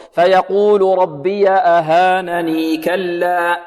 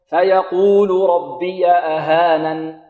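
First: Slow chanted reading, ياء of أهانني sounded long into كلا; continuous recitation. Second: Slow chanted reading, أهانن closed on a still ن; stopping recitation. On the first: Teacher showing students the joined reading, chanted with final ya held. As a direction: run أهانني straight into كلا without stopping. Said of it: "هكذا في الوصل". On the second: Teacher showing students the pausal reading, chanted ending without ya. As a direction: drop the ya and stop on the n of أهانن. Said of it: "في الوقف". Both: Shown as a demonstration.

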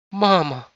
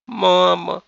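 First: High, loud cry of shock; scandalized exclamation; shocked gasp. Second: High, wailing appeal; whining, beseeching cry; plaintive drawn-out plea. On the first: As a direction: gasp the word out, appalled. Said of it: "ахнула невестка". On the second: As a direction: stretch the word out pitifully. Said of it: "жалобно протянула невестка". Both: A narrator's reading.

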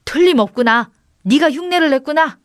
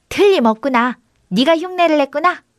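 First: Higher, mildly excited realisation; lightly raised wonder; amazed certainty. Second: Higher echo of an exclamation; lightly voiced copycat goat; mimicking goat. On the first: Acted. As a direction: exclaim that you have found the culprit. Brother confirms the goat mimicked him. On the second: A narrator's reading. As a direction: parrot the exclamation as a talking goat. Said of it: "염소가 입을 나불거리며 그대로 흉내를".

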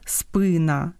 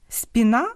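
First: «спина» stressed on the first syllable, СПИ; Ukrainian stress. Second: «спіна» stressed on the last syllable, НА; Russian stress. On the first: Host giving the Ukrainian word, first-syllable stress. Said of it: "і українському". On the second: Host contrasting two languages, Russian final stress. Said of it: "з наголосами в російському". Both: Shown as a demonstration.

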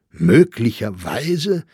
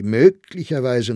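First: Slow, louder plaintive echo; near-weeping disbelief; almost tearful. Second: Said in the usual way. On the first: A narrator's reading. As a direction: repeat it in drawn-out dismay. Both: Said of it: "wiederholte Sachsberger beinahe weinend".

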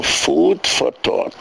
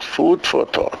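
First: Slow, deliberate "food for thought", each word drawn out; slow quoted phrase. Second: Said in the usual way. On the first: Shown as a demonstration. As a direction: lay out "food for thought" slowly, like naming a term. (פאמעלעך, ווי א באגריף: "food for thought") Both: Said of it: "That's what it's called".

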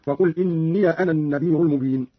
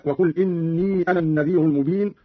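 First: إني said "inniya"; Qalun's إني, ending -ya before أنا; fatha on ya. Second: Said in the usual way. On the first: Shown as a demonstration. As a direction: add an open a after the ya of إني. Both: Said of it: "قرأ قالون بفتح الياء هكذا".

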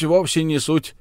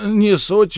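First: A calmer echo of no matter; mild dismissal. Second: High, loud dismissive burst; an emphatic first no matter; brushing it off. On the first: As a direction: let the point drop. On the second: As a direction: wave the objection away, loudly. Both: Acted. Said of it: "замахал руками Беккер".

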